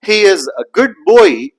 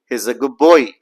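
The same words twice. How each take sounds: First: Put-on higher, louder, with a full D in "good boy"; without assimilation. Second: Put-on "good boy" linked, D turned into a lip sound; with assimilation. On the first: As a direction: sound every word, D released before "boy". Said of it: "So instead of saying". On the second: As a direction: say "goob boy", no D. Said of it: "the D sound changes into P". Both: Shown as a demonstration.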